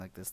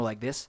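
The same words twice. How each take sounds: First: The voice is soft, mumbled and in the throat. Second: The voice is clear and projected forward. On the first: The speaker calls it wrong. "mumbling and talking softly in the back of my throat" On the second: The speaker calls it right. "talk more like this"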